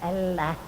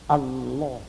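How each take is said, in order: First: The L is pronounced light and thin. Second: The L is pronounced heavy and full. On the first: The speaker calls it wrong. "Tidak boleh dibaca Allah" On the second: The speaker calls it right. "Ini harus dibaca tebal"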